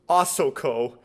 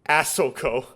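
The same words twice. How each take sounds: First: It is said with Japanese pronunciation. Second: It is said with an American English accent. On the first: "it's Asoko" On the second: "they put an American English accent on it"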